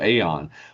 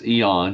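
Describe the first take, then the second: First: The word begins with an 'ay' sound. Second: The word begins with an 'ee' sound. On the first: The speaker calls it wrong. "with that A uh, in the front of it, there we all have a tendency to go Aeon" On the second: The speaker calls it right. "but it's Eon"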